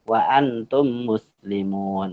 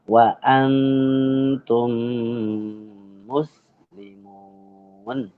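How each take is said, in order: First: The m is cut short without a nasal hum. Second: The m is held with a long nasal hum. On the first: The speaker calls it wrong. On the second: The speaker calls it right.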